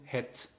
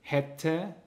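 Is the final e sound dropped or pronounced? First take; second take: dropped; pronounced. First: The final e sound is dropped. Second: The final e sound is pronounced.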